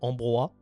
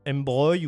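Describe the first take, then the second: First: The name is pronounced the French way. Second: The name is pronounced the English way.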